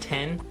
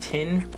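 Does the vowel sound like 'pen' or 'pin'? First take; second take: pen; pin. First: The vowel sounds like the one in pen. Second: The vowel sounds like the one in pin. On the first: This is the usual way to say it. The speaker calls it right. "instead of ten" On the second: This is how some Southern speakers say it. The speaker calls it wrong. "I hate it when they say tin"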